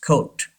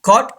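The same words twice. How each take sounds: First: COAT with a long "oh"; British-style "coat", KOHT; British pronunciation. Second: COAT as "caught", open "aw"; American-style "caught" for coat; American pronunciation. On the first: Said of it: "लेकिन Britishers". (coat को British "कोट" बोलें) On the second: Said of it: "Americans पढ़ते हैं". (caught यानी अमेरिकी "कॉट") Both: Shown as a demonstration.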